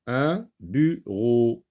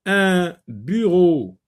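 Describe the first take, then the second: First: Bureau slowly broken into bu, pause, ro; bureau split by syllable. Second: Said in the usual way. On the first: Shown as a demonstration. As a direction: sound out bureau as two separate syllables, bu and ro. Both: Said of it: "Dans la deuxième syllabe".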